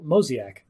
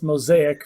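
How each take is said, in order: First: "mosaic" said as MOE-zee-ack; mispronounced mosaic. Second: "mosaic" said as moe-ZAY-ick; correct pronunciation. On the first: Retold or imitated. Co-host confesses a word he said wrong, "mosaic" as MOE-zee-ack. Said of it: "read and said it wrong". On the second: Shown as a demonstration. Co-host corrects it for listeners, "mosaic" as moe-ZAY-ick. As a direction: give "mosaic" properly, stressed on ZAY. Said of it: "it's, uh, it's mosaic".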